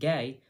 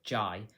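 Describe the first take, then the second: First: The name starts with a hard g sound. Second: The name starts with a j sound.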